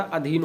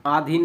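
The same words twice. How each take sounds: First: अधीन with short opening अ; correct pronunciation. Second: आधीन with long opening आ; wrong pronunciation. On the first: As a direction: keep the first vowel of अधीन short. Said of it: "अधीन होता है". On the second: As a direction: stretch the first vowel of आधीन. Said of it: "आधीन नहीं होता". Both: Shown as a demonstration.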